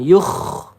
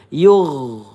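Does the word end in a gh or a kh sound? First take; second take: kh; gh. First: The final sound is a voiceless throaty kh. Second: The final sound is a voiced throaty gh. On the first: The speaker calls it wrong. "bukan yugh. Hati-hati tertukar dengan huruf kho ya" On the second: The speaker calls it right. "huruf ghain hati-hati kalau dia sukun yugh. Seperti itu ya"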